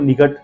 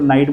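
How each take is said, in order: First: The gh is pronounced as a hard sound. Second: The gh is silent, giving one syllable. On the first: The speaker calls it wrong. "निघट तो नहीं बोल सकते उसको" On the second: The speaker calls it right. "पूरी दुनिया उसको नाइट बोलती है"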